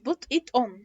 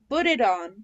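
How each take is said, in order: First: The t sounds are clear t sounds. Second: The t sounds are soft, like d. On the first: The speaker calls it wrong. "مش put it on" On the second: The speaker calls it right. "فكده ال T between two vowels هتبقى D"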